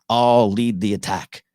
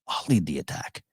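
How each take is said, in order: First: It is said loudly, screamed out. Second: It is said quietly, as if to himself.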